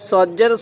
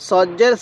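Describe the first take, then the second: No difference in how they are said.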